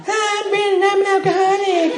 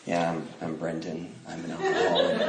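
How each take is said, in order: First: Put-on very high, squeaky teen voice; fifteen-year-old newcomer. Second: Low, hushed, serene self-introduction; put-on spiritual. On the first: Fifteen-year-old introducing himself at a meeting, squeaky kid voice. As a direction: squeak it out like a young teenager. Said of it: "I'm fifteen". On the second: Young man introducing himself at a meeting, mock spiritual calm. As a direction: speak softly as if newly enlightened. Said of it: "supposed to talk like this is spiritual".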